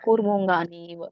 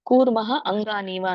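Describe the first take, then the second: First: The words are fused into one joined word. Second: The words are said apart as separate words. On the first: "ಕೂಡಿಸು ಹೇಳ್ಬೋದು" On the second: "separate ಮಾಡ್ಬೋದು"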